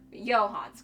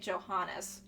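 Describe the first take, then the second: First: The name is said with two syllables. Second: The name is said with three syllables. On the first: The speaker calls it right. "That's how it's pronounced" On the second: The speaker calls it wrong. "I've been pronouncing it Johannes"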